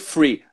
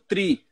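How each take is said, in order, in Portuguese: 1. A palavra começa com som de f. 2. A palavra começa com som de t. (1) "fala que nem o F" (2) "fala como um T, que vai ficar mais o T"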